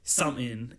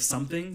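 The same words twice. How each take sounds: First: "something" said as "sumin", no th or g; dropped-g pronunciation. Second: Said in the usual way. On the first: Shown as a demonstration. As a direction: slur "something" down to a casual "sumin". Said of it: "I say something instead of something". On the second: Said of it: "which I would normally say".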